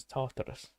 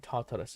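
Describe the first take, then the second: First: Tartarus said the Greek-game way; game-style pronunciation. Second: Said in the usual way. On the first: Shown as a demonstration. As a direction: say Tartarus as in Assassin's Creed. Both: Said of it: "I love saying Tartarus as Tartarus".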